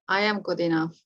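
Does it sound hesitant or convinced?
hesitant. It is said hesitantly, without conviction.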